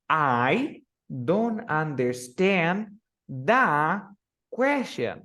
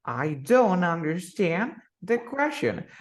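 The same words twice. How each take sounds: First: Slow and even, hanging on "the" before "question"; flat learner rhythm; wrong stress. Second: "don't" punched, "question" falls; correct stress. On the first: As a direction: stretch "the" like a learner. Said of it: "Tú en inglés no dices". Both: Shown as a demonstration.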